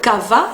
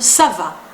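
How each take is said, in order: First: The first sound is a hard k. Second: The first sound is an s. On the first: The speaker calls it wrong. "Y no digo ça va" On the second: The speaker calls it right. "sino ça va"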